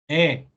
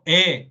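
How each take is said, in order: First: The vowel is said more open than in Spanish. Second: The vowel is said closer, as in Spanish. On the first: "y es más abierta" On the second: "No digo E, como lo diría en español"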